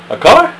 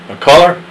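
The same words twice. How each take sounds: First: A color? squeaked very high with a rise; too high, childish reading of "A color?"; wrong high take. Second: A color? with a moderate rising question, a bit louder; corrected take. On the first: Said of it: "No, wrong". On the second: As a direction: ask "color" with a gentle rise. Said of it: "Start over again". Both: Acted.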